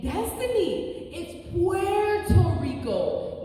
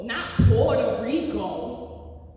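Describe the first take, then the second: First: "Puerto Rico" said slowly with Spanish vowels and a tapped r, high and precise; Spanish pronunciation. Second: "Puerto Rico" slowed down and said the English way, "Porter Rico"; mock the anglicized "Puerto Rico", slow and pointed; anglicized pronunciation. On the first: Retold or imitated. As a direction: correct "Puerto Rico" the Spanish way, slow and deliberate like a stern professor. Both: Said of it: "The voice of my college professor".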